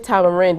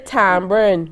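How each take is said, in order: First: It is said in a standard, non-Bajan pronunciation. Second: It is said in the local Bajan pronunciation. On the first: This is how outsiders say it. "Bajans don't say tamarind" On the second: This is how locals say it. "We say tamarind"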